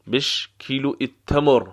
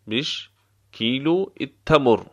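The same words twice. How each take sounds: First: Said in the usual way. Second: بش alone, pause, then کیلو التمر; word by word. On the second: Shown as a demonstration. Teacher repeating the price question for learners, word by word. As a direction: separate the words for a learner.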